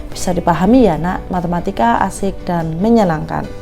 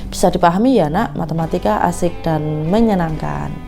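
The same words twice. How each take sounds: Both takes have the same delivery.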